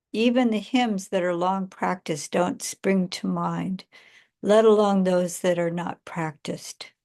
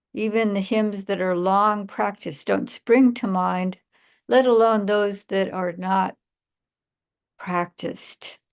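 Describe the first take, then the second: No difference in how they are said.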